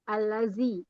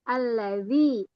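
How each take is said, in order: First: The middle consonant is a plain z sound. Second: The middle consonant is a soft dh sound. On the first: The speaker calls it wrong. "dibaca menjadi zai" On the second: The speaker calls it right. "Yang harusnya allazi pakai za"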